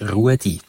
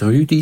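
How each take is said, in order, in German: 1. Der erste Vokal gleitet von u zu e. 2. Der erste Vokal ist ein einzelner gerundeter ü-Laut. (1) "sondern auf Schweizerdeutsch Ruedi" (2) "das heißt nicht Rüdi"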